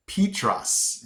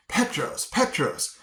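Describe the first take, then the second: First: Petros said PEE-truss; corrected pronunciation. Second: Petros said PET-rohs; mistaken pronunciation. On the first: Retold or imitated. Somebody correcting [name], Petros as PEE-truss. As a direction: stretch the first vowel of Petros to PEE, then truss. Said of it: "somebody had to tell me". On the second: Shown as a demonstration. Telling of his own mistake, Petros as PET-rohs. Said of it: "I pronounced it Petros".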